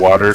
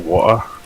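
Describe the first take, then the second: First: The T in the middle is pronounced. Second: The T in the middle is dropped.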